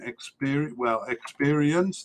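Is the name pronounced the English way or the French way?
English. The name is pronounced with English sounds. "the English pronunciation"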